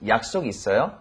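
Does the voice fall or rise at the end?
rise. The pitch rises at the end. It asks whether the person has plans. "We can just ask someone"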